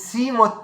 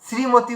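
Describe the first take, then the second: No difference in how they are said.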